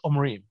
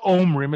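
First: The word has standard Israeli stress. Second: The word has Ashkenazi-style stress. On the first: The speaker calls it right. "it's Omrim" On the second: The speaker calls it wrong. "it's not Omrim"

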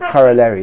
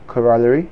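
First: It is said in the American way, rhyming with Larry. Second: It is said in the British and South African way. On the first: "Americans say it's a corollary, like Larry" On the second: "South Africans say, and English people, the way it's meant to be is corollary"

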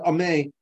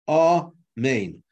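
First: The final syllable and its n are dropped. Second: Both syllables are said fully and distinctly. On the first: The speaker calls it wrong. "you just have the first syllable, but you don't have a second syllable" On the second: The speaker calls it right. "amen has to be recited as two syllables"

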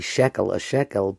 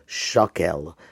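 First: The first vowel is an 'e' sound. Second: The first vowel is an 'a' sound. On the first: The word is in ordinary position within a verse. "you call a shekel" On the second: The word ends a verse or clause. "the word turns into shakel"

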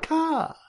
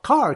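First: It is said without the r, Boston style. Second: It is said with the r sound.

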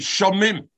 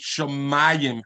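First: The word has two syllables, ending in -im. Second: The word has three syllables, ending in -ayim. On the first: It is read only by the written letters. The speaker calls it wrong. "Otherwise, we should say Shamim" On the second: It is read as if an aleph were written. The speaker calls it right. "as if it had an aleph"

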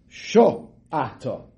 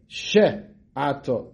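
First: The first syllable has an 'o' vowel. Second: The first syllable has an 'e' vowel. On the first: The speaker calls it right. "It's a komatz" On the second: The speaker calls it wrong. "Many times people say with a segel"

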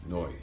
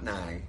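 First: The syllable ends with an 'oy' vowel sound. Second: The syllable ends with an 'eye' vowel sound. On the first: The speaker calls it right. "it's Noi" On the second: The speaker calls it wrong. "It's not Nai"

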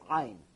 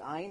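First: It is said in a Yemenite Hebrew pronunciation. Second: It is said in the usual non-Yemenite pronunciation. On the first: "like the Yemenites pronounce certain words ... they say Ein" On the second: "we say Ein"

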